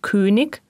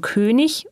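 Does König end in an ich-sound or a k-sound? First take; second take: k-sound; ich-sound. First: It ends in a hard k-sound. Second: It ends in a soft ich-sound. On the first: The speaker calls it wrong. "wie in Süddeutschland meist zu hören" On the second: The speaker calls it right. "Die Endung IG wird ich gesprochen"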